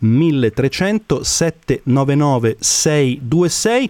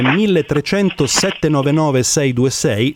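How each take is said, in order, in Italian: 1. Il numero viene letto più lentamente e con calma. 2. Il numero viene letto a un ritmo normale, più veloce.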